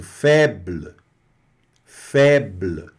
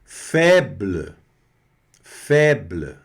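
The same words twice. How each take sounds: First: Faible, final e almost gone; French faible. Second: Febl, final e fading; faible, blurred end; French faible. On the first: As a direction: febl. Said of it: "o E quase sumindo". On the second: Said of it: "o B L aqui no final bem". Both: Shown as a demonstration.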